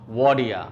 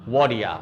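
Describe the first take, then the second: The two takes are said the same way.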